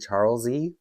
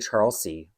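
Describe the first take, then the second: First: The last syllable starts with a Z sound. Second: The last syllable starts with an S sound. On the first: This is how the owner of the name says it. "Catherine pronounces her name Charles E, like with a Z sound" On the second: This is how the speaker usually says it. "I say Charles C, like, you know, a water, a body of water"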